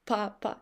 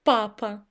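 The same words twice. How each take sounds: First: Papa said again much softer; softer repeat. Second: Said in the usual way. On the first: Shown as a demonstration. Teacher repeats the model word for students, softly. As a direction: let papa drop quietly on the repeat. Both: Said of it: "And now this word".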